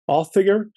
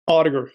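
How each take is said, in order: First: The name is said in an Old Norse way. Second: The name is said in an English-sounding way.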